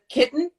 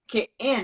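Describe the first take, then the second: First: The middle t is clearly pronounced. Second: The middle t is swallowed into a catch. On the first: "Instead of kitten" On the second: "he says "k'in""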